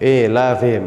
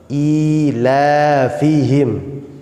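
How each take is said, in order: First: The first vowel sounds like e. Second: The first vowel sounds like i. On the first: The speaker calls it wrong. "bukan berbunyi e la fihim" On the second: The speaker calls it right. "sempurnakan harokatnya dengan berbunyi i"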